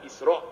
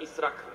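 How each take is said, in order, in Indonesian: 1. Kata ini berakhir dengan hentian glotis. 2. Kata ini berakhir dengan bunyi k. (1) "sebut betul-betul Isra' Alif Sin Ra Alif Hamzah" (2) "bukan Israq"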